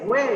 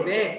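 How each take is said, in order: First: "Way" begun with lips coming together; "Way" with a clear W glide; W sound. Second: "Way" mispronounced as "vay"; "Way" starting on teeth and lip. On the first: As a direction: say "Way" with rounded W lips. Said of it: "You say". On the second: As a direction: say "Way" with a V sound instead of W. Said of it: "don't say". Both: Shown as a demonstration.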